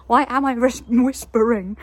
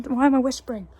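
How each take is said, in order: First: Louder, back to full voice; out of the whisper. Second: Said in the usual way. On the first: Real, not acted. Catching self whispering, louder full voice. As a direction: drop the whisper and speak up.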